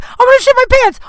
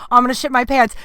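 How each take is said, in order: First: High, loud panicked yell. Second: Said in the usual way. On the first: Retold or imitated. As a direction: shout "I'm gonna shit my pants" in a desperate inner panic. Inner panic, needs the bathroom.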